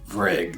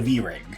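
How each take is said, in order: First: It is blended into a single syllable, vrig. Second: The letter V is said, then rig. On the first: The speaker calls it wrong. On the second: The speaker calls it right.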